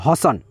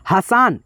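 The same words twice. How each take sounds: First: हसन with short a sounds, ह स न all short; correct reading. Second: हसान read with a long aa after स, wrong on purpose. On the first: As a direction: say हसन with no long vowel anywhere. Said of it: "ह में अ का ध्वनि, स में अ का ध्वनि". (हसन को छोटे अ के साथ सही बोलना) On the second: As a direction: stretch the स into सा in हसान. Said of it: "ये बिल्कुल गलत हो गया". (हसान में स को लंबा सा बोलना, गलत उच्चारण) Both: Shown as a demonstration.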